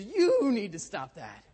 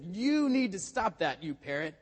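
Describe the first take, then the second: First: Loud, high, slow mocking echo; hammed-up parrot throwing the order back; parrot mimicking exasperation. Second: Loud, high, drawn-out exasperated order; acted scolding, stretching out the opening words. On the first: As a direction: stretch YOU long and high, mimicking a scolding. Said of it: "the parrot stood up a little straighter". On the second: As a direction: raise the voice in mock exasperation. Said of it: "Matt was a little exasperated".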